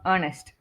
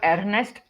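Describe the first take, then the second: First: The first syllable sounds like earn. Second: The first syllable sounds like err. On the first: The speaker calls it right. "We say earn, earnest" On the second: The speaker calls it wrong. "it's not earnest. We don't say er"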